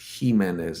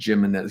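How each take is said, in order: First: The name begins with an H sound. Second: The name begins with an English J sound. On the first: The speaker calls it right. "J isn't J. It's H" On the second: The speaker calls it wrong. "He just pr- he pronounces it the way it's spelled"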